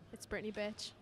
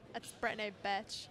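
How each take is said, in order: First: It is said in her normal voice. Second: It is said in a Valley girl voice.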